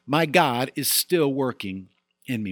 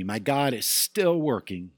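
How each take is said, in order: First: Said in the usual way. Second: "still" stressed, each word slow and weighted; slow emphatic repeat. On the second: Shown as a demonstration. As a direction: lean on "still" and slow the whole phrase down.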